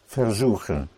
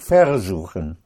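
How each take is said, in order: First: The stress is on the second syllable. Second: The stress is on the first syllable. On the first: The speaker calls it right. "you don't put the stress on that prefix here" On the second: The speaker calls it wrong. "It's not versuchen"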